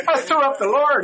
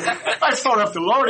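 First: Put-on high, loud boy voice, insisting; boy repeating louder. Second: Put-on high, slow boy voice, half-laughing; sheepish boy confessing. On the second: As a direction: confess it like a mortified kid. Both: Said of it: "He goes".

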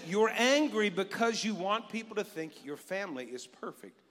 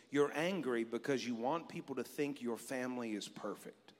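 First: Louder, proclaimed; cued God line said out; booming God voice. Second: Low, soft inner voice; quiet voice of God. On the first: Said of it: "We practiced that earlier". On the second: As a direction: speak it gently as God would. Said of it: "inward voice of God say this to me". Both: Retold or imitated.

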